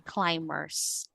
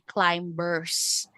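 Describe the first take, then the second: First: The b is silent after the m. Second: The b sound is pronounced after the m. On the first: The speaker calls it right. "silent B" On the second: The speaker calls it wrong. "we don't say climbers"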